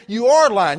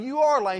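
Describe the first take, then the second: First: Much louder, stress on are; insistent accusation. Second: Said in the usual way. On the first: Retold or imitated. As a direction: push back hard, raising the voice. Escalating argument with Bubba.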